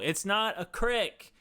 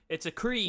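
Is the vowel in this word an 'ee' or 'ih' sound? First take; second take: ih; ee. First: The word is said with a short 'ih' vowel. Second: The word is said with a long 'ee' vowel. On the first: The speaker calls it wrong. "No, it's not a creek" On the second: The speaker calls it right.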